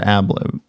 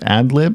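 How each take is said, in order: First: A b sound comes before 'lib'. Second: A d sound comes before 'lib'. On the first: The speaker calls it wrong. "One I say incorrectly and the one I don't" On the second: The speaker calls it right. "One I say incorrectly and the one I don't"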